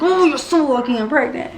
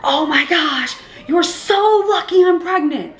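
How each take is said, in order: First: Restrained mock yell, raised pitch; holding back anger. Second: High, drawn-out outraged cry; mock yell, stretching the words; retold angry yell. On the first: Pregnant mother fisted up at the other mom, holding back anger. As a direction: replay the angry warning, held in check. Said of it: "I'm holding myself back". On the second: Pregnant mother warning the other mom, retold angry yell. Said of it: "I yelled so loud".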